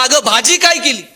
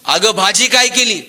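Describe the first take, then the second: First: Loud, high mock yell; husband yelling right behind his wife; जोरात ओरडणे. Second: Calling out to the wife from the door; raised voice, a mild call across the house; आवाज देणे. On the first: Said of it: "आणि जोरात ओरडला". (जोरात ओरडत विचारणे) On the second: Retold or imitated. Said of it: "यानं दारातूनच आवाज दिला". (हाक मारत)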